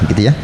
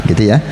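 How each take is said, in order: Both takes have the same delivery.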